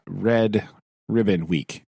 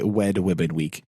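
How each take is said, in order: First: Said slowly, with a clear R in 'Red'. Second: 'Red' begins with a W-like sound. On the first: The speaker calls it right. "I have to say that very slowly" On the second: The speaker calls it wrong. "I always say it like Elmer Fudd style"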